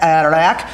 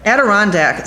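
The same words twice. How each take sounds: First: Adirondack mumbled as "Aerdack", middle syllables swallowed; slurred Adirondack. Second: Adirondack said fully as "A-di-RON-dack", every syllable clear; corrected Adirondack. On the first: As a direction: rush through Adirondack, dropping the "ron". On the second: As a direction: say Adirondack carefully, all four syllables. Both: Real, not acted.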